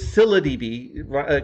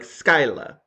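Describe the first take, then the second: First: The name begins with a 'sill' sound. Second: The name begins with a 'sky' sound. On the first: This is the usual modern pronunciation. "kind of like silly, but with an A at the end" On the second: This is the ancient Greek pronunciation. "like Homer's Greek, you would have said like Skyla"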